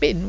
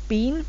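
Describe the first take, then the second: First: The vowel is short, like 'bin'. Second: The vowel is long, like 'bean'. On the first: "the sound gets shortened, so it sounds like bin" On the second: "It is been"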